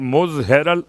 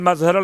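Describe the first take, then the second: First: The first vowel is a 'u' sound. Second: The first vowel is an 'a' sound. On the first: "मुजहरल अजाइब भी पढ़ा जाता है" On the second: "मजहरल अजाइब भी पढ़ा जाता है"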